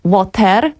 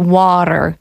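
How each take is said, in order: First: The middle T is a clear, crisp T. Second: The middle T sounds like a soft D. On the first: The speaker calls it wrong. "nie jako water" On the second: The speaker calls it right. "to ty będzie bardziej takim dr"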